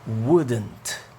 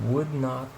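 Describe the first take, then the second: First: It is said as one shorter contracted word. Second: It is said as two full words.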